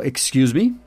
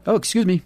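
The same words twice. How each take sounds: First: Said in the usual way. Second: Light polite excuse. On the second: Shown as a demonstration. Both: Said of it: "eu usaria só o".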